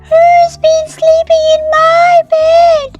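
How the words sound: It is a tiny, high, squeaky voice.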